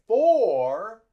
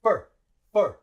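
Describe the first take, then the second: First: "for" with a drawn-out "or"; full long vowel. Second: "fur" as short, unstressed "fer"; quick "fur" with no "o" sound; reduced schwa. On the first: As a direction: stretch "for" as a full, strong word. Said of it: "we don't say for". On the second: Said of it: "we say uh". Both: Shown as a demonstration.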